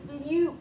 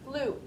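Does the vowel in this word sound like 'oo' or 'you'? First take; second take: you; oo. First: The vowel sounds like 'you'. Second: The vowel sounds like 'oo'. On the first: The speaker calls it wrong. "it's not a fluke" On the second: The speaker calls it right. "It's a fluke, ooh"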